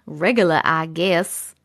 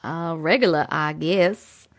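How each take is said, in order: First: Low, slow New York drawl; New York accent. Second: Low Brooklyn-style quote voice; New York accent. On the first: Shown as a demonstration. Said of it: "My, my New York accent". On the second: Retold or imitated. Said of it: "And he says".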